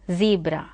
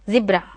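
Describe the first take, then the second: First: It is said in an American accent. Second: It is said in a British accent. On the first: "In U S American English it is called as zebra" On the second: "the Britishers pronounce as zebra"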